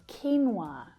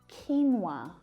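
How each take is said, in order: Both takes have the same delivery.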